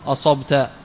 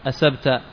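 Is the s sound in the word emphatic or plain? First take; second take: emphatic; plain. First: The s sound is emphatic, pronounced with a backed tongue. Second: The s sound is plain, pronounced without backing. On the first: The speaker calls it right. "أراد أن يقول أصبت" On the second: The speaker calls it wrong. "فأتى بالسين بدل الصاد"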